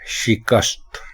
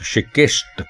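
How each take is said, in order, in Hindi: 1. शब्द 'kast' से खत्म होता है। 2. शब्द 'kist' से खत्म होता है। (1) "दुरुस्त लफ्ज है शिकस्त" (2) "जिसको हमारे यहाँ लोग शिकस्त पढ़ते हैं"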